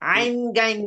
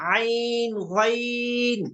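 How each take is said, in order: First: The letter names have an Urdu-style pronunciation. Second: The letter names have an Arabic-style pronunciation. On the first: This is how it was taught in the past. The speaker calls it wrong. "আইন গাইন না, আইন গাইন পড়া যাবে না।" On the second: This is how it is taught now. The speaker calls it right. "সঠিকটা পড়ানো হচ্ছে।"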